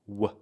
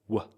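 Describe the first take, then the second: First: The word is reduced to a weak, short sound. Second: The same.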